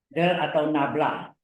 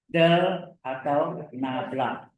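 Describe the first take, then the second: First: Said in the usual way. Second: Spaced out at half speed; slow repeat. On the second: Shown as a demonstration. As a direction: say each word slowly for the class. Guru mengulang istilah baru pelan-pelan. (diulang pelan, kata demi kata)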